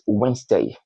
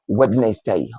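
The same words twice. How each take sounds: First: The first d is silent. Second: The first d is pronounced. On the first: The speaker calls it right. "The first uh, letter D there is uh, silent, so it's Wednesday" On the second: The speaker calls it wrong. "and not Wednesday"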